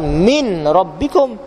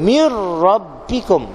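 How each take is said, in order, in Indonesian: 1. Bunyi n terdengar sebelum r. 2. Bunyi n melebur menjadi r ganda. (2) "matikan nun dalam huruf ra"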